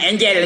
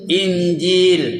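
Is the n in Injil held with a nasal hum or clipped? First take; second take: clipped; nasal hum. First: The n is short, with no nasal hum. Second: The n is held with a nasal hum. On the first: The speaker calls it wrong. "Jangan angel aja" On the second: The speaker calls it right.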